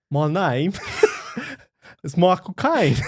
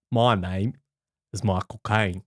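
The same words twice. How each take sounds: First: Hammed-up celebrity impression through giggles; Michael Caine. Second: Measured, deep celebrity impression; Michael Caine. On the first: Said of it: "can you do your impression of Michael Caine". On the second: Co-host answering a request for his impression, low mock Michael Caine. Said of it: "do your impression of Michael Caine".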